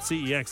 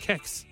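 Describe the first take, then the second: First: The name is spelled out as three letters. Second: The name is said as one word starting with K. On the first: "I always call it CEX" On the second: "Other people have been calling it Kex"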